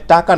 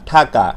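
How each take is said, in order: First: "টাকা" with a plain T, no puff; unaspirated T. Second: "ঠাকা" with a puff of air on the T; aspirated T. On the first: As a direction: say "টাকা" with an unaspirated first sound. (অল্পপ্রাণ ট দিয়ে "টাকা") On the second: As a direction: aspirate the first sound of "ঠাকা". (মহাপ্রাণ ঠ দিয়ে "ঠাকা") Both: Shown as a demonstration. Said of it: "তার মানে টাকা না".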